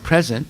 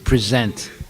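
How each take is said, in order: First: The stress is on the first syllable. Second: The stress is on the second syllable. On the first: It is the word meaning the current time. "that's the correct way. You're emphasizing the first syllable" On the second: It is a different word with another meaning. "it has a different meaning, right? When you say present"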